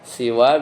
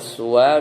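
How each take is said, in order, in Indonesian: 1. Vokal pertama adalah bunyi i. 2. Vokal pertama adalah bunyi u. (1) "seperti ridon" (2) "seperti huda"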